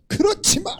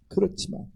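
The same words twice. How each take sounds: First: 그렇지만 cried out high and sharp; high exclaimed but. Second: 그렇지만 breathed in a whisper; whispered but. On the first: Preacher contrasting takes, 그렇지만 said high. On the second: Preacher contrasting takes, 그렇지만 whispered. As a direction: drop 그렇지만 to a hush. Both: Shown as a demonstration.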